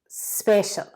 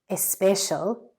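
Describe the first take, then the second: First: The word begins directly with an s sound. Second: The word begins with an added e vowel. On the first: The speaker calls it right. "So I think that is special" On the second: The speaker calls it wrong. "try and make the e silent"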